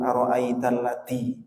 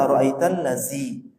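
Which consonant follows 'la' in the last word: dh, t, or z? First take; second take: t; z. First: The last word has a t sound after la. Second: The last word has a z sound after la. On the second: "Kalau zi itu bukan huruf dal tapi huruf zai"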